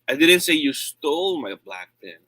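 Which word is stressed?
stole. The stress falls on the word stole. The pen was borrowed, not taken. "I said you borrowed it"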